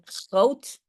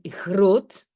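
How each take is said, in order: First: It is said with a Netherlands Dutch accent. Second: It is said with a Belgian Dutch accent. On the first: "aux Pays-Bas, ils vont dire groot" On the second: "en Belgique, on dit groot"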